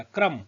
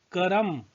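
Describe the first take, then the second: First: क्रम said with क and र joined as one cluster; teacher giving the proper joined form of क्रम. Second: करम said with क and र split apart; teacher splitting क्रम into its sounds; spelled out slowly. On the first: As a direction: say क्रम with the क्र fused together. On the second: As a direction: break करम apart to show र after क. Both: Shown as a demonstration. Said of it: "क के बाद रो आया".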